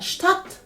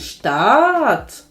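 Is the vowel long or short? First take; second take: short; long. First: The vowel is cut short. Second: The vowel is held long. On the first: The speaker calls it right. "Також короткими будуть голосні" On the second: The speaker calls it wrong. "Не"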